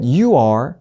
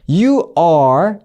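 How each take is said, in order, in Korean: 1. 빠르게 말했고, w 소리가 이어져 들려요. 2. 천천히 신중한 속도로 말했어요.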